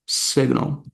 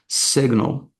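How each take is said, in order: First: Short 'i' vowel first, with a g sound. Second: Short 'i' vowel first, with a g sound.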